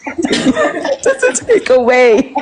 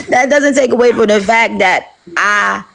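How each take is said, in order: First: Squeaky high, helpless laughter through the words; laughing. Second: Said in the usual way. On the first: Real, not acted. Speaker losing it mid-point to her listeners, laughing. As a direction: try to get the words out while cracking up. Breaks up laughing while repeating herself.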